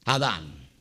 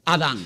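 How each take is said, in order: First: Low quiet echo. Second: Said in the usual way. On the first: Shown as a demonstration. Preacher echoing his own answer, low and soft. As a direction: repeat it much lower and softer. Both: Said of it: "¿qué?".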